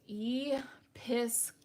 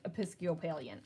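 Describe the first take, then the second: First: It is said slowly, sounded out. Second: It is said quickly, in one go.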